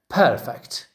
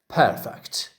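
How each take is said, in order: First: The stress is on the first syllable. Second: The same.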